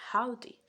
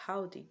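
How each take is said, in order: First: A louder, lifted Southern "Howdy."; mock Southern drawl greeting. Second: Said in the usual way. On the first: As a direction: belt out a friendly Southern "Howdy.". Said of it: "a Southern American will say". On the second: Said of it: "The Southern American will say".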